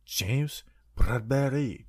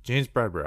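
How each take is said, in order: First: Slow, whispered French accent on the name. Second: Said in the usual way. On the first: Shown as a demonstration. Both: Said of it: "I don't know why I did a French accent".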